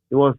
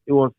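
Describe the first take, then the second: No difference in how they are said.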